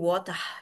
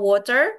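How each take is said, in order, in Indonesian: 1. Kata ini diucapkan dengan aksen bahasa Inggris Britania. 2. Kata ini diucapkan dengan aksen bahasa Inggris Amerika. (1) "di U K nanti jadi water" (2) "Kalau kita ngomong water di U S A"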